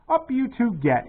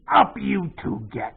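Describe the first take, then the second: First: It is read in a plain narrating voice. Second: It is read in a put-on pirate voice.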